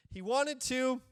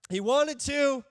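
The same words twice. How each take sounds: First: Said in the usual way. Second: Much louder, coaxing the congregation; louder prompt. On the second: Shown as a demonstration. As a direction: push them to answer, louder. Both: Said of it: "come on, eleven A M, be with me here".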